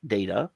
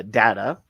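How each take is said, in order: First: Data said DAY-tuh; long A in data. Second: Data said DAT-uh; short A in data. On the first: Host gives both pronunciations for listeners, data as DAY-tuh. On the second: Host gives both pronunciations for listeners, data as DAT-uh. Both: Shown as a demonstration. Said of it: "that's why I'm doing it twice".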